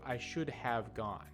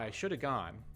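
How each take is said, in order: First: Should and have are said as two full words. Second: Should have is reduced to one blended word. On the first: "Instead of" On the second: "should have turns into shoulda"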